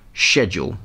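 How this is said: The word is pronounced with a British accent. The speaker calls it right. "the correct, or original, British pronunciation of schedule"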